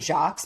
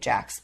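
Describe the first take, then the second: First: The vowel sounds like the one in 'lock'. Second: The vowel sounds like the one in 'lack'. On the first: It is read from the spelling. The speaker calls it wrong. "I want to say Jocks because of how it's spelled" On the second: It is how the people themselves say it. The speaker calls it right. "they keep pronouncing it Jax"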